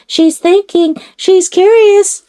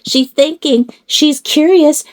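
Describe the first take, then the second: First: Sung. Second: Cooing. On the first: Repeats louder, higher. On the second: Cooing about doll. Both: Pretend.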